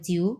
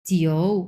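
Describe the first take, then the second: First: The final vowel sounds like a u. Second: The final vowel sounds like an o. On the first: The speaker calls it wrong. "যদি এভাবে বলে জিউ, তাহলে আপনারা বলবেন যে ... তোমারটা ভুল হয়েছে" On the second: The speaker calls it right. "এটার মেন উচ্চারণ হবে জিও"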